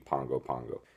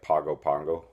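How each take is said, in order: First: The middle consonant is an ng sound. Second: The middle consonant is a plain g sound. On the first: This is how the locals say it. "they pronounce it like an N G" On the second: This is how the spelling reads. "it looks like"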